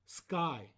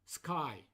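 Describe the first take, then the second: The two takes are said the same way.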